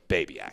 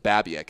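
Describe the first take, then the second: First: The name begins like the word 'baby'. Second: The name does not begin like 'baby'. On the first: The speaker calls it right. "it took me a month to get your name right, but it's Babyak" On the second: The speaker calls it wrong. "When I first met you, I, I pronounced it Babiak"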